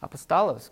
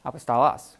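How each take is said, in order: First: Apostolos with a long "oh" on the last syllable, ending in a z sound; echoing the student's version. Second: Apostolos ending crisp "-los", short open o, hard s; corrected pronunciation. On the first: Teacher echoing a student's Greek word, final syllable said "-lohz". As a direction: repeat back "Apostolos" as the student said it, closing with "-lohz". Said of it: "So there's one problem". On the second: Teacher modelling a Greek word for the class, firm "-los" ending. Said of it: "Where do you get the O sound?". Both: Shown as a demonstration.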